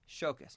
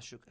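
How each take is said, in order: First: The first vowel sounds like 'oh'. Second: The first vowel sounds like 'oo'. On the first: The speaker calls it right. "Shokas, not Shukas" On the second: The speaker calls it wrong. "not Shukas"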